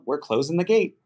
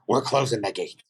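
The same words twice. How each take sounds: First: It is said in a light, friendly tone. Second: It is said in a harsh, aggressive tone. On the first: A casual, harmless message is intended. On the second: The reader takes the message as hostile.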